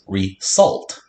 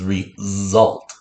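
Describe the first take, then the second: First: The middle consonant is a hissing s sound. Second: The middle consonant is a buzzing z sound. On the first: It means salting food again. The speaker calls it wrong. "Like you're resalting your food" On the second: It means an outcome. The speaker calls it right. "Second sound of the z"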